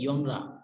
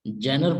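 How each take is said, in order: First: The word begins with a 'y' sound. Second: The word begins with a 'j' sound. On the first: The speaker calls it right. "जो correct pronunciation है इसकी वो है योनरा" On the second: The speaker calls it wrong. "कुछ लोग जैनर पढ़ते हैं"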